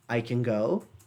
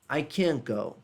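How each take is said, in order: First: The stress falls on the word go. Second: The stress falls on the word can. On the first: The speaker is able to go. "caso esteja na positiva, a pessoa vai colocar a força na ação" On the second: The speaker is not able to go. "quando é na negativa a pronúncia vai mais forte no can"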